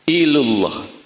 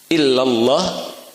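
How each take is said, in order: First: The vowel after the l is 'u'. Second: The vowel after the double l is 'a'. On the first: The speaker calls it wrong. "tapi menjadi ilullah" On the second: The speaker calls it right. "Bukan lagi illallah"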